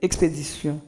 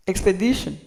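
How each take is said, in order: First: Expédition said the French way, ending in a nasal -sion; "expédition" with French vowels; French pronunciation. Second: Expedition said the English way, ending in -shun; "Expedition" with English vowels; English pronunciation. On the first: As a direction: prononciation française de expédition. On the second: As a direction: prononciation anglaise de Expedition. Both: Shown as a demonstration. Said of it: "On va prononcer".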